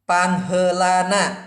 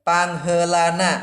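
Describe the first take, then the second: The two takes are said the same way.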